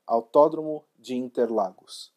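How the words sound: The name is said with a Brazilian accent. The speaker calls it right. "the native way to pronounce the track's name"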